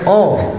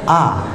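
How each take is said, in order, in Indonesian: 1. Vokalnya bunyi 'oh' yang membulat. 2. Vokalnya bunyi 'ah' yang terbuka. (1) "semua menyanyikan oh, bukan oh" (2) "yang benar itu ah"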